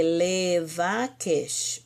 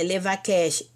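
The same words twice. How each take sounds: First: "Levakesh" very slowly as le-va-kesh; syllable by syllable. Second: Said in the usual way. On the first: Shown as a demonstration. Teacher recalling the verb for students, syllable by syllable. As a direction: space out each syllable of "Levakesh". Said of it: "o verbo é o quê?".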